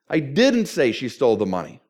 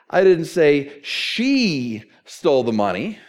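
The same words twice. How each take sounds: First: The stress falls on the word didn't. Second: The stress falls on the word she. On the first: The listener wrongly believes it was said. "And apparently you think I did" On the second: A different person took the money. "We all know it was Dade"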